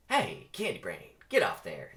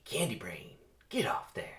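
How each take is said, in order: First: Jackson's voice. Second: Hissed urgent whisper; whispered scolding; whispered warning. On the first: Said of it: "This is, this is Jackson". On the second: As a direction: warn him under the breath. Jackson warns Barry. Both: Acted.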